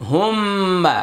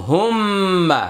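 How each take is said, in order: Both takes have the same delivery.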